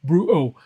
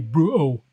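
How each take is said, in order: First: The T in the middle is dropped. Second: The same.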